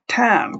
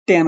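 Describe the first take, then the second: First: "ট্যান" with a puff of air after T, pitched higher; aspirated T. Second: Said in the usual way. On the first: Shown as a demonstration. Teacher correcting learners, "ট্যান" with a breath-burst T. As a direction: stretch "ট্যান" with a strongly aspirated T. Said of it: "বলো, ট্যান". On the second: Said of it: "তুমি আর উচ্চারণ করবা না".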